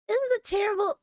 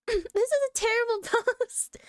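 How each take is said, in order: First: Said in the usual way. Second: Mock British accent, higher, with a laugh; a laughing put-on British accent on "terrible post". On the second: Reading a Reddit post aloud in a mock British accent. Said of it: "slipping into a British accent".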